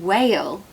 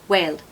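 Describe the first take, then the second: First: The vowel is drawn out with a gliding y sound. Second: The vowel is short with no gliding y sound. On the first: The speaker calls it right. "way more musicality and beauty in whale" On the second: The speaker calls it wrong. "than whale"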